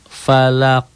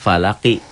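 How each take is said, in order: First: The word ends on an echoing q sound. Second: The word ends with a short i vowel. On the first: The reading stops at this word. "Tapi kalau dihentikan jadi" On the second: The reading continues into the next word. "Kalau disambung gitu kan"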